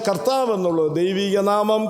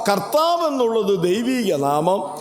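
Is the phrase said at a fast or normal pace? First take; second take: fast; normal. First: It is said quickly, at a hurried pace. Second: It is said at an ordinary, unhurried pace.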